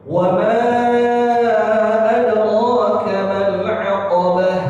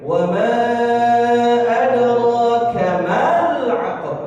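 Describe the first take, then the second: First: The 'ma' runs straight into the 'l'. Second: The 'ma' is drawn out before the 'l'. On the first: The speaker calls it right. "Langsung mal" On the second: The speaker calls it wrong. "jangan didelay, jangan ditunda bacaannya. Jangan dibaca gini"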